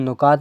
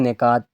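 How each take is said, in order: First: The first syllable has a 'u' vowel. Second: The first syllable has an 'i' vowel. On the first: The speaker calls it wrong. "हम नुकात नहीं कह सकते" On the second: The speaker calls it right. "छः निकात थे"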